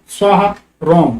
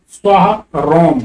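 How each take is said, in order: The two takes are said the same way.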